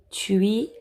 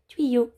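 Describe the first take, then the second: First: Said in the usual way. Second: "Tuyau" repeated higher and louder; emphatic repeat. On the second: Shown as a demonstration. Teacher repeating a word for the children, higher and louder. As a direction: call out "Tuyau" again, high and clear.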